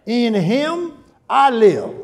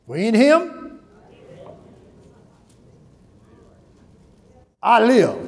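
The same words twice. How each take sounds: First: Slow, stress on "I" in "In him I live"; personal stress. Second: Said in the usual way. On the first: Shown as a demonstration. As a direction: lean slowly on "I" in "In him I live". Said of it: "I personalized it". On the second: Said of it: "You saw what I did?".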